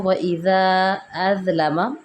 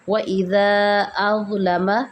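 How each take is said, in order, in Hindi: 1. z की आवाज़ पतली और नरम है। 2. z की आवाज़ मोटी और नरम है। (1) "अगर हम ज़ा को मोटा नहीं करेंगे" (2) "अज़लम मोटा भी होगा और नरम भी पढ़ा जाएगा।"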